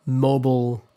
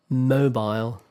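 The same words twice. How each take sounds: First: Mobile ending in a reduced "bul"; American pronunciation. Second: Mobile ending like "bile"; British pronunciation. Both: Shown as a demonstration.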